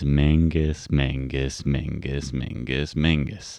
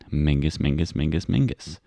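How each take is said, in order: First: The words are said slowly and deliberately. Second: The words are said at normal quick speed.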